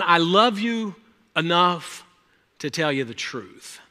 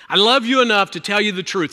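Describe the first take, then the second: First: Slow tender words. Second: Said in the usual way. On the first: Real, not acted.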